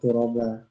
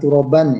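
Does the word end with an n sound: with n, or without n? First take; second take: without n; with n. First: The word ends on a vowel, without n. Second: The word ends with an n sound. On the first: This is the form used when stopping at the word. "karena wakof ya, turoba" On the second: This is the full form with the ending. "Kan turoban ya"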